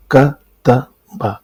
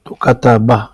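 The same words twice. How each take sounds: First: کتبہ said very slowly, ka-ta-ba with each fatha vowel drawn out; teacher drawing out each syllable; slow syllable demo. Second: Said in the usual way. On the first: Shown as a demonstration. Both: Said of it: "جیسے میں کہتا ہوں کتبہ".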